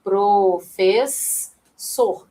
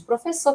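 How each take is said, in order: First: Professor drawn out very slowly, syllable by syllable; slow syllable split. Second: Said in the usual way. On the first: Shown as a demonstration. Teacher spelling out syllables to her live class, very slow. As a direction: stretch out pro-fes-sor so each syllable is heard. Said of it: "tá vendo?". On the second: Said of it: "ó".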